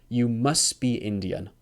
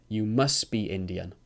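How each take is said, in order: The two takes are said the same way.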